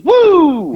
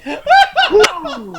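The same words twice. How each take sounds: First: High, loud wrestler's woo; Ric Flair woo. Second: High, breathy whoo let out after a deep breath; sated exhale. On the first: Explaining the wrestler's catchphrase, loud high woo. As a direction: belt out the signature woo. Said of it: "He goes". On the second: A stuffed wrestler exhaling after eating, laughing. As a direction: blow it out like you've overeaten. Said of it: "took a deep breath and let it out". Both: Retold or imitated.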